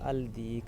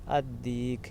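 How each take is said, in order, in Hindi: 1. आर्टिकल का 'l' साफ़ बोला जाता है। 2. 'l' दोहरे 'd' की आवाज़ में मिल जाता है। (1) "अगर ये दाल कमरिया है तो आप इसको पढ़ेंगे" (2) "अगर दाल शम्सिया है तो आप इसको पढ़ेंगे"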